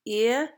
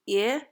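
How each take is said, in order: Both takes have the same delivery.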